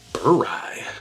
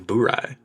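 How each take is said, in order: First: The first syllable sounds like 'burr'. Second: The first syllable sounds like 'boo'. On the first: The name joins the words bourbon and rye. "bourbon and rye together would be burr rye" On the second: The name is read from its spelling. "so many people say boo rye"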